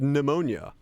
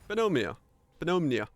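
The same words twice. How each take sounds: First: "pneumonia" ohne P, wie nu-mo-nia; English pronunciation. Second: "Pneumonia" mit hörbarem P, pe-no-mi-a, Finnisch ausgesprochen; Finnish pronunciation. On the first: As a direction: sag "pneumonia" mit stummem P, englisch. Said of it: "is said pneumonia". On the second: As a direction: sag "Pneumonia" mit dem P vorne, wie auf Finnisch. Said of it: "we say". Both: Shown as a demonstration.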